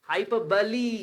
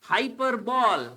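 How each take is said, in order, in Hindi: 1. यह शब्द 'buh-lee' जैसी आवाज़ से खत्म होता है। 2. यह शब्द 'bowl' जैसी आवाज़ से खत्म होता है। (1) "इट्स हाइपरबली" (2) "नॉट बॉल"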